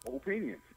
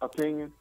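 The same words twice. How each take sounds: First: The first vowel is a full oh sound. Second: The first vowel is a reduced uh sound. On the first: The speaker calls it right. "he stresses the O in opinion" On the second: The speaker calls it wrong. "Most of us say opinion, A H"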